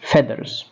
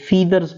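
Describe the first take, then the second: First: The first vowel is a short 'e' sound. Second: The first vowel is a long 'ee' sound. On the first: The speaker calls it right. "लफ्ज़ की pronunciation है फेदर" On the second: The speaker calls it wrong. "आम तौर पे फीदर्स पढ़ लेते हैं, जो कि बेसिकली गलत है"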